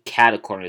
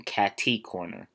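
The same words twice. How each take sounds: First: "cata corner" with a middle uh; cata pronunciation. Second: "catty corner" with a crisp tee in the middle; catty pronunciation. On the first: Podcaster picking own habit, "cata corner" as CAT-uh corner. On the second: Podcaster contrasting the other option, "catty corner" as CAT-TEE corner. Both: Shown as a demonstration. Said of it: "I more say cata corner than catty corner".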